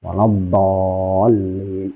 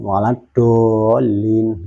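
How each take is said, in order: First: "Waladolin" drawn out, heavy tongue-edge d; correctly placed dhad. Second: "waladolin" drawn out, with a tongue-tip d; misplaced dhad. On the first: Teacher modelling the correct recitation, slow heavy tongue-edge "Waladolin". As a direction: chant "Waladolin" slowly with a thick dhad from the tongue's side. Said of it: "nggak boleh keluar dari makhrajnya". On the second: Teacher imitating a common misreading, slow tongue-tip "waladolin". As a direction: chant "waladolin" slowly with a plain dal-like d. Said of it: "sudah keluar dari makhrajnya".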